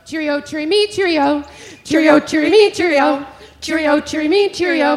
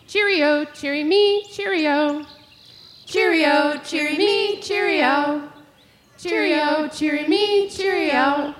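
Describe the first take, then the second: First: Higher and much louder "Cheerio, cheery me"; loud dawn robin song. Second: Higher sing-song "Cheerio, cheery me"; robin song. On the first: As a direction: belt it out to wake everyone. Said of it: "if it's at dawn". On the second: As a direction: lilt it like a robin. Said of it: "So we're gonna say". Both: Shown as a demonstration.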